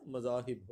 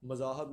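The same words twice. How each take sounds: First: مذاہب as "ma-zaa-hib", i last; correct pronunciation. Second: مذاہب as "ma-zaa-hab", a last; wrong pronunciation. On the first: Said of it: "مذاہب ہوتا ہے". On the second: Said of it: "مذاہب نہیں ہوتا". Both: Shown as a demonstration.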